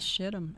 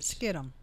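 First: The word begins with an SH sound. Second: The word begins with an SK sound.

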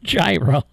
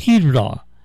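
First: The word is said with an English pronunciation. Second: The word is said with a Greek pronunciation. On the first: "a lot of us English call it gyro" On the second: "The Greek pronounce it hetero"

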